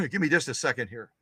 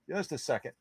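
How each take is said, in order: First: Said in the usual way. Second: Muttered much softer under the breath; soft aside to herself, not for the audience; quiet mutter to herself. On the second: Real, not acted. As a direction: drop to a private mumble while searching. Repeats request while searching.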